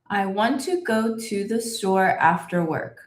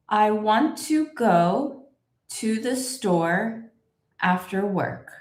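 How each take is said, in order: First: It is said at the fastest pace. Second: It is said slowly with a small pause. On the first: "And a little bit faster" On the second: "put a little pause where you see this line"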